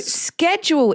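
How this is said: It is said in an American way.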